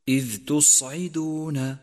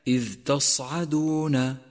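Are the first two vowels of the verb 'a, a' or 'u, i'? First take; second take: u, i; a, a. First: The verb's first vowels are 'u' then 'i'. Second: The verb's first vowels are 'a' then 'a'. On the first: The speaker calls it right. "فانتبه إلى ضمة التاء وكسرة العين... فالصواب أن تقول" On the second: The speaker calls it wrong. "والخطأ الشائع"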